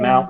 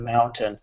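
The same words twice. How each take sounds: First: The t is softened and not crisply released. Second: The t is pronounced crisply and clearly. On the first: The speaker calls it wrong. "or we say" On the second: The speaker calls it right. "instead of mountain"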